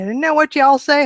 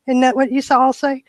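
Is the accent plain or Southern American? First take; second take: Southern; plain. First: It is said in a Southern American accent. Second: It is said in a plain, unmarked accent.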